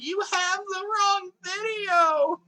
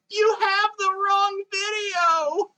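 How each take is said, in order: First: Very high, slow squeaky meme shout. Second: Meme voice. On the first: Retold or imitated. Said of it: "I'll just D M the person, like". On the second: Acted. Meme quote shouted high.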